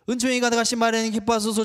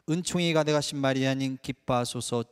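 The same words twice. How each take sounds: First: The words are rushed out quickly. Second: The words are said slowly and carefully. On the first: The person is hurrying to finish the prayer. The speaker calls it wrong. "우린 너무 바빠요. ... 빨리 열 번 끝내고 빨리 빨리" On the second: The person is greeting someone present with devotion. The speaker calls it right. "내 앞에 계신 성모님께 이렇게 드립니다"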